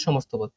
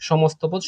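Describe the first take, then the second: First: সমস্ত পদ repeated lower and softer, falling to close. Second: সমস্ত পদ said at normal level, stressed on সমস্ত with a slight rise; announced answer. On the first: Teacher quietly echoes the answer so students remember it. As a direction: settle the answer with a quiet echo. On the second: Teacher announces the answer to students, stressing সমস্ত. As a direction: present the answer clearly. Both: Shown as a demonstration. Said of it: "এই পদটাকে বলা হয় কি?".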